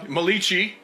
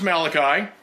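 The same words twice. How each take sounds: First: It is said with an Italian-sounding pronunciation. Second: It has a hard k sound, usual English style. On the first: "as I like to say. I personally believe he was the first Italian prophet" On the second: "I don't know why we use the hard C there"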